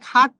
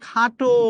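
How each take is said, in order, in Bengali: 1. শব্দটি স্বরহীন ব্যঞ্জনে শেষ হয়। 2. শব্দটি ও-কার স্বরে শেষ হয়। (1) "এটা খাট না" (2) "এটা খাটো, টয় ওকারে টো"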